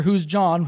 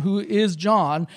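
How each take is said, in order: First: Said in the usual way. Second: Slow, leaning on the word is; Who is John? with is drawn out and stressed. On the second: Shown as a demonstration.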